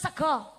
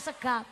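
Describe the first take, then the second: First: The final vowel is a rounded 'o' sound. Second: The final vowel is an open 'a' sound. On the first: "ra doyan mangan sega" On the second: "Mangane sega"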